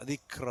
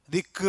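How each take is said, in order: First: ദിക്റ with a clean, still k and no echo; correct pronunciation. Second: ദിക്റ with an echoing bounce on the k; wrong pronunciation. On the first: Teacher showing students the correct ദിക്റ with a still k. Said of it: "എന്നാണ് പറയുന്നത്". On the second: Teacher showing students the wrong ദിക്റ with a bounced k. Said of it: "എന്നല്ല". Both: Shown as a demonstration.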